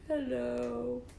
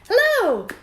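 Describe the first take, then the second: First: It is said in a sad voice. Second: It is said in a wide-awake voice.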